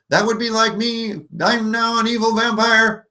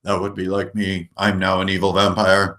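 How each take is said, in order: First: Normal voice pushed way up high; high-pitched evil vampire; higher voice. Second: Normal voice dropped a little lower; slightly lowered evil vampire voice. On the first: Game master demoing simple voice changes, very high. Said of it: "normal voice, higher". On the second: Game master demoing simple voice changes, lower. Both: Shown as a demonstration.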